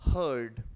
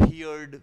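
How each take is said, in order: First: The vowel sounds like the one in 'her'. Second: The vowel sounds like the one in 'here'. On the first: The speaker calls it right. "But this is हर्ड" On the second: The speaker calls it wrong. "कई बार हम लोग इसको कुछ अलग तरीके से पढ़ देते हैं"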